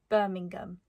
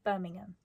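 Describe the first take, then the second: First: It ends with a clearly pronounced hard G. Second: It ends without a hard G sound. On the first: "I say it with a very hard G" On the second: "instead of Birmingham"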